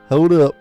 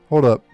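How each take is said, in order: First: It is said in the character's put-on accent. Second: It is said in the reader's plain voice.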